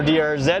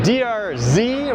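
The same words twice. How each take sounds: First: The final letter is said the Canadian way. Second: The final letter is said the American way.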